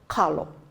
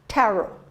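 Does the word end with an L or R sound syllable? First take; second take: L; R. First: The word has K and L sounds. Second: The word has T and R sounds. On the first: This is the form used on the other islands. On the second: This is the Kauai form of the word.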